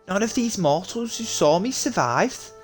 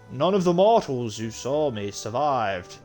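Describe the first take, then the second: First: It is said in a Scouse accent. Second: It is said without a Scouse accent.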